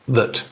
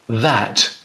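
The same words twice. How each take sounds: First: The word is said weakly, with an unstressed vowel. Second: The word is said fully, with a clear vowel. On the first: "becomes that" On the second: "So this word"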